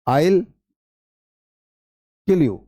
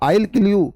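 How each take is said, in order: First: "I will" is said as two full words. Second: "I will" is shortened to one syllable. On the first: "sentence होता है आई विल kill you" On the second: "वो आइल बोलता आइल, वो आई विल नहीं बोलता"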